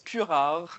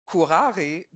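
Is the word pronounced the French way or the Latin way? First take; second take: French; Latin. First: The word is pronounced the French way. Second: The word is pronounced the Latin way. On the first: It refers to a poison. "When the word, written the same way, is pronounced in French" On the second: It refers to caring for objects. "the term furare, from which the word curating comes from"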